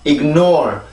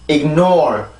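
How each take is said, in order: First: The syllables run together without clear stress. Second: The syllables keep a clear stress and rhythm. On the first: The speaker calls it wrong. "이렇게 이어지는 발음이 아니고" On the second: The speaker calls it right. "반드시 강세와 리듬을 지켜서"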